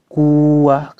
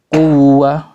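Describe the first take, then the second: First: Quwwah slowly, the doubled w let slide like a long vowel; wrong long vowel. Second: Quwwah with the doubled w pressed and a bit louder; pressed tasydid. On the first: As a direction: say quwwah wrongly, drawn out with no press. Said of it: "kayak mat". (contoh salah, quwwah dibaca seperti mad) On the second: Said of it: "suara itu ditekan sedikit". (quwwah dengan tekanan yang benar) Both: Shown as a demonstration.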